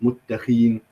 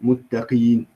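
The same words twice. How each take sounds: Both takes have the same delivery.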